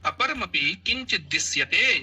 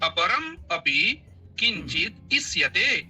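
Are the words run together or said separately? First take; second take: together; separately. First: The words are run together without any breaks. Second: The words are said separately with small breaks.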